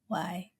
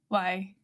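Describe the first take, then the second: First: The word is said very softly and gently. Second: The word is said at normal, louder volume.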